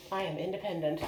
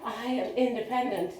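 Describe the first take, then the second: First: Laughing through the words; giggling proudly at the triumph. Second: "independent" lifted and stretched proudly; stress on independent. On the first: First steps alone, laughing. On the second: Repeats it proudly. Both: Real, not acted.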